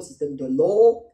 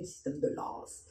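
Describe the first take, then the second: First: The name ends in a vowel sound. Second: The name ends in an s sound. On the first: "on sait que le W ne se prononce pas S" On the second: "est-il devenu le système de Lass"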